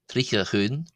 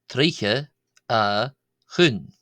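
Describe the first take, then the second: First: The phrase is said quickly. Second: The phrase is said slowly.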